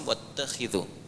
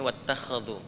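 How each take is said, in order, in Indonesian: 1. Vokal setelah bunyi kh adalah 'i'. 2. Vokal setelah bunyi kh adalah 'a'. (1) "Riwayat Hafiz dari Asim wattakhidhu" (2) "Kalau di riwayat Warash atau Qalun itu dibacanya wattakhadhu"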